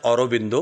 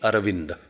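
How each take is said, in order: First: The name is said with rounded Bengali o vowels. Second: The name is said with flat, unrounded Marathi vowels.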